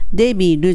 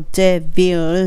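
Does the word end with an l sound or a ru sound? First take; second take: ru sound; l sound. First: It is said like Japanese debiru, ending in ru. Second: It is said like English devil, ending in l. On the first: The speaker calls it wrong. "そのデビルじゃなくて" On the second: The speaker calls it right. "じゃなくてdevil"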